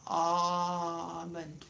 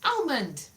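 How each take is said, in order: First: Almond with an open AH, no L; Almond the French way, AH-mond. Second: Almond with a short A and clear L; bright AL-mond, L sounded; Almond as AL-mond, crisp. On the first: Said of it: "French pronunciation was ah". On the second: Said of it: "Why is it not almond?". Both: Shown as a demonstration.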